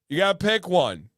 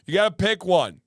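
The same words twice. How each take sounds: The two takes are said the same way.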